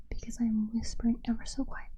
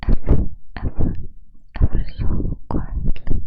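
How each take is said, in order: First: Quick gentle ASMR whisper; soft whisper. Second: Breathy mouth-only inaudible whisper. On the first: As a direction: whisper softly, close to the mic. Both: Shown as a demonstration. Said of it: "is called a inaudible whisper".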